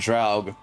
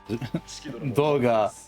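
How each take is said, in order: First: The name is said the English way, like Draug. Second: The name is said the Japanese way, like Doga. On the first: "The rest of the world" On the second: "Japanese pronunciation"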